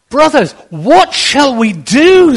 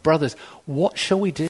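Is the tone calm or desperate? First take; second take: desperate; calm. First: It is cried out in a desperate tone. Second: It is said in a calm, matter-of-fact tone.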